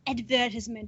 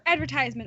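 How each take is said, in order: First: It is said with a British pronunciation. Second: It is said with an American pronunciation.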